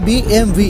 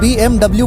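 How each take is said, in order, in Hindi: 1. आखिरी अक्षर वी बोला जाता है। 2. आखिरी अक्षर डबल-यू बोला जाता है। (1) "सही बोलने का तरीका होता है बी एम वी" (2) "अक्सर लोग बी एम डब्ल्यू बोलते हैं"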